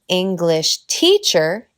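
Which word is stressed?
teacher. The stress falls on the second word. It names a teacher from England. "es un maestro de Inglaterra"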